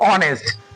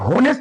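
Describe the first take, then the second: First: The word starts with a vowel, no h sound. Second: The word starts with a clear h sound. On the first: The speaker calls it right. "इसका actual उच्चारण होता है ऑनेस्ट" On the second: The speaker calls it wrong. "ये होनेस्ट नहीं होता है"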